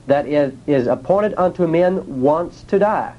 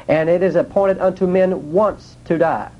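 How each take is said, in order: First: Said in the usual way. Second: The word "once" leaned on with a falling pitch; stress on once. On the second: Shown as a demonstration. Preacher to the congregation, stressing "once". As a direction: make "once" the heavy word of the line. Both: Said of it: "the emphasis is on the word once".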